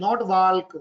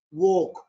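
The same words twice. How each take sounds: First: "walk" with the L sounded; "walk" with a clear L; wrong L sound. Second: "walk" said as wok, no L; "walk" rhymes with wok; "walk" with the L silent. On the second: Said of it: "L silent". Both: Shown as a demonstration.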